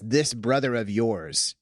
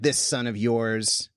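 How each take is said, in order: First: Slow, gentle this brother of yours, a twinkle in the voice; gentle, meek father. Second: Slow, mild mocking of this son of yours; mocking older son. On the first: Retold or imitated. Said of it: "like, gently, meekly, like, with a twinkle in his eye". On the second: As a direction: sneer lightly at the brother, slowly. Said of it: "I hear him actually mocking the dad".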